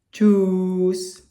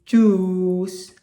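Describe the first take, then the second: No difference in how they are said.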